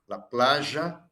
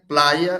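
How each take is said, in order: First: It is said with an Argentine Spanish accent. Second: It is said with a Spain Spanish accent.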